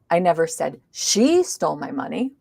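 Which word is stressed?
I. The stress is on the word I. Someone else may have said it. "maybe somebody else did"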